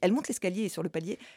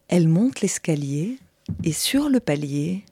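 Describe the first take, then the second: First: The phrase is spoken quickly and briskly. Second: The phrase is spoken slowly and calmly. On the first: Her slow pace is lost. The speaker calls it wrong. "ça ne marche à nouveau pas" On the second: She climbed the stairs unhurriedly. The speaker calls it right. "t'as compris qu'elle n'avait pas speedé, quoi, qu'elle était tranquille"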